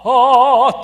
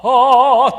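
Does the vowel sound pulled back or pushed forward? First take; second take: back; back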